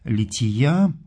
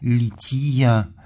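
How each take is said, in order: First: The word carries its ordinary modern Russian stress. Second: The word carries the Church Slavonic stress placement.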